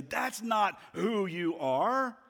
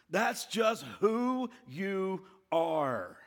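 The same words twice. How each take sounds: First: High, slow, emphatic refutation; Jesus. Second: Very slow, pitched-up verdict; condemning accuser. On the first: Answering the accuser's lie, slow and emphatic. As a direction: proclaim it slowly, leaning on the denial. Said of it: "hear the voice of Jesus in that moment say". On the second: Satan tells us who we are, slowly condemning. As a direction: draw out each word as a final judgement. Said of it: "And he says to us". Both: Acted.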